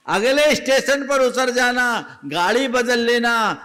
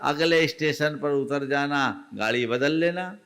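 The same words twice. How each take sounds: First: Higher and louder, driving the advice home; old woman repeating her advice to the youth, higher and louder; emphatic advice. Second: Said in the usual way. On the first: Retold or imitated. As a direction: repeat it forcefully to make him listen. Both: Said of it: "कहा".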